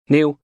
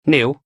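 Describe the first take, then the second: First: Said in the usual way. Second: A higher, louder prompting call; sharp command. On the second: Acted. Snap the name as an order. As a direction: Julie signalling her henchman to hit the captive, loud and higher.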